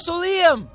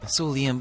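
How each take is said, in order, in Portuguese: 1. A frase é gritada em voz alta. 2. A frase é dita baixinho e em voz suave. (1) "de repente grita" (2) "Só que depois percebe que está a ser demasiado inconveniente"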